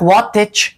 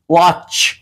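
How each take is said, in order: First: A T sound is heard before the CH. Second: No T sound is heard before the CH. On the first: The speaker calls it wrong. "اینجا هیچ وقت واتچ نمی گوییم" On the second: The speaker calls it right. "واچ واچ"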